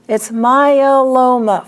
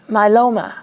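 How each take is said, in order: First: It is said with four syllables. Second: It is said with three syllables. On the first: The speaker calls it right. "four syllables" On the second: The speaker calls it wrong. "They don't put that E in there. They just say my"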